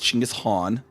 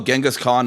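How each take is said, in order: First: The name starts with a 'ch' sound. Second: The name starts with a soft 'j' sound. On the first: The speaker calls it right. "No, it's like it's Chinggis Khan" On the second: The speaker calls it wrong. "almost always mispronounced"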